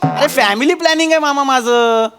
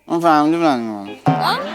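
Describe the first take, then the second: First: It is said out loud, clearly. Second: It is mumbled quietly under the breath.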